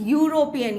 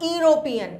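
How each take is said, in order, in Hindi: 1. शब्द 'y' ध्वनि से शुरू होता है। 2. शब्द एक सादी स्वर ध्वनि से शुरू होता है। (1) "यहां पे यू का अगेन साउंड आ रहा है" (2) "इट इज नॉट"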